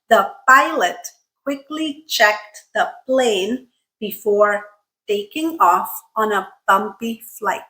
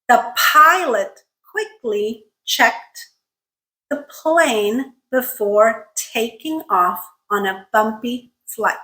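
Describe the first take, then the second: First: The p, t and k carry no air puffs. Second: The p, t and k carry puffs of air. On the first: The speaker calls it wrong. "If I remove aspiration, this is what it sounds like" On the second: The speaker calls it right. "let's try pronouncing it correctly"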